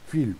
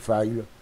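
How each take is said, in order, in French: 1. Le nom se prononce à la française. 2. Le nom se prononce à l'anglaise.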